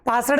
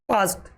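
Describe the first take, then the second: First: The word ends with a d sound. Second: The word ends with a t sound. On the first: The speaker calls it wrong. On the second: The speaker calls it right.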